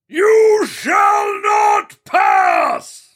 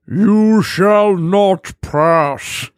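First: It is shouted angrily. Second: It is said calmly, without anger.

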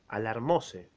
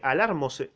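First: The stress falls on the syllable 'mo'. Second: The stress does not fall on 'mo'. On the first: The speaker calls it right. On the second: The speaker calls it wrong.

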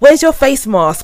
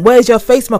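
First: It is asked in a polite tone. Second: It is asked in a blunt tone.

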